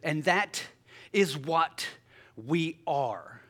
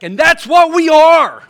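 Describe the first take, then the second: First: It is said flatly, without excitement. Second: It is said excitedly, like an exclamation. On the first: The speaker calls it wrong. "Not like that" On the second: The speaker calls it right. "with an exclamation point"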